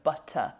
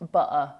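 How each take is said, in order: First: The T is pronounced as a clear T. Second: The T is replaced by a glottal stop.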